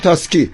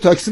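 First: The s sound comes before the k. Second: The k sound comes before the s. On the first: "بعضی وقتا به تاکسی میگن تاسکی" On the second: "وقتی میگن تاکسی"

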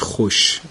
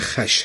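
First: It has the everyday modern pronunciation. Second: It has the older classical pronunciation. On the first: This is how people say it today. "حالا ما میگیمش خوش" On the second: This is the proper form for the poem. "ولی گویش درست برای این واژه خش هست"

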